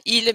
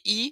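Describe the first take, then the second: First: The word ends with a clear L sound. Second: The word is said as a bare vowel sound. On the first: "pas ils" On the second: "mais I, ça c'est courant"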